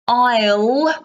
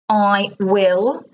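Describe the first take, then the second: First: The two words are run together as one syllable. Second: The two words are said fully and separately.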